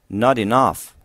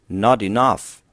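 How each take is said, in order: The two takes are said the same way.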